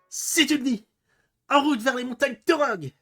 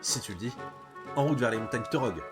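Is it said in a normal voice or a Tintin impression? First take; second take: Tintin impression; normal voice. First: It is said imitating Tintin's voice. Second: It is said in his normal voice.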